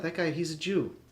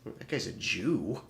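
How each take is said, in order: First: It is said in a plain, neutral tone. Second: It is said with a sneering, contemptuous tone. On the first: It is a neutral description of someone. The speaker calls it right. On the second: It is used as a slur. The speaker calls it wrong. "with a little stank on it, it becomes a slur"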